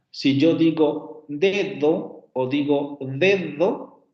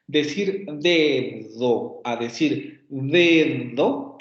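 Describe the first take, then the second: First: Slow, careful demo of "dedo" with stopped then fricative d; two ways of d. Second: "dedo" drawn out very slowly, stop d against fricative d; very slow classroom contrast of the d in "dedo"; two ways of d. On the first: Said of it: "como por ejemplo en esta parte de dedo". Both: Shown as a demonstration.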